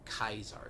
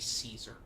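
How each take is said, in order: First: The name begins with a K sound. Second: The name begins with an S sound. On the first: This is the intended pronunciation of the name. "You're supposed to say it Kaiser" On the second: This is the common American pronunciation. "Americans say Caesar"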